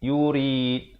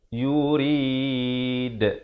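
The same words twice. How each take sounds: First: The final d is stopped with no bounce. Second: The final d is released with an echoing bounce. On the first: The speaker calls it wrong. "tak ada pantulan. Itu sah, salah" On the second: The speaker calls it right. "ada pantulan"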